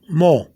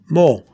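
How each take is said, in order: First: The vowel is two quick sounds in succession. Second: The same.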